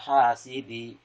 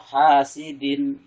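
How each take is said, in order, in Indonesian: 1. Bunyi n di akhir dihilangkan. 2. Bunyi n di akhir diucapkan dengan jelas. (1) "ini berarti tidak jelas n-nya" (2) "jadi n-nya harus jelas"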